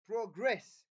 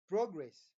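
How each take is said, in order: First: The stress is on the second syllable. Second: The stress is on the first syllable. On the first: It is used as a verb. "that is a verb" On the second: It is used as a noun. "This is a noun"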